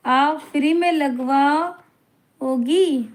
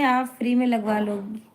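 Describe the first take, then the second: First: आप free में लगवाओगी drawn out very slowly, stretching में; slow incredulous repeat. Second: Said in the usual way. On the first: Retold or imitated. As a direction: stretch it out in mock disbelief.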